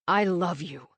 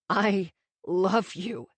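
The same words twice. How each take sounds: First: It is said firmly and with conviction. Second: It is said haltingly with a cracking voice.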